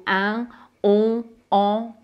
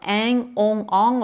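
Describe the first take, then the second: First: Northern French pure nasal vowels; northern French accent. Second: Southern French nasal vowels with a slight NG tail; southern French accent. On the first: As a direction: say the nasals as in northern France, no consonant tail. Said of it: "l'accent du nord". (accent du nord de la France) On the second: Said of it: "avec mon accent du sud". (accent du sud de la France) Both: Shown as a demonstration.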